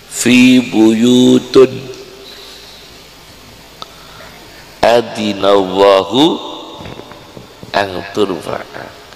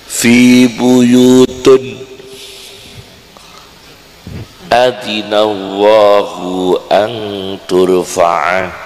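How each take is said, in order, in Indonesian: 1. Kata buyut berakhir dengan bunyi un. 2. Kata buyut berakhir dengan bunyi un.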